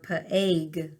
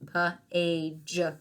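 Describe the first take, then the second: First: The word ends with a hard G sound. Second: The word ends with a soft J sound. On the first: The speaker calls it wrong. "It's not pag or pa-ag. We're not making the G sound" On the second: The speaker calls it right. "we're making a J sound"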